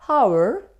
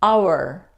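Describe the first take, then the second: First: The word begins with an h sound. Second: The word begins with a vowel, no h sound. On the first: The speaker calls it wrong. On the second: The speaker calls it right. "H isn't pronounced"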